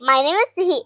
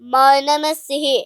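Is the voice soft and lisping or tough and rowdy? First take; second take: lisping; rowdy. First: The voice is soft, childlike and slightly lisping. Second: The voice is tough, bold and rowdy. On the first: "ಸಿಹಿ ಸ್ಟೈಲು ಒಂಥರ ತೊದ್ಲುತ್ತೀನಿ" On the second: "Subbi ಸ್ಟೈಲ್ ಅಲ್ಲಿ ಹೇಳೋದಾದ್ರೆ"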